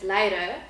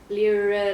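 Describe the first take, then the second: First: The r in the middle is strongly rolled. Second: The r in the middle is not rolled. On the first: The speaker calls it right. "it's actually Afrikaans name. So rrr" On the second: The speaker calls it wrong. "that's where the English speaking people are struggling with"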